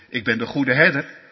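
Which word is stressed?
herder. The stress falls on herder, not on ik. The good shepherd is the main point. The speaker calls it wrong. "Niet zo van"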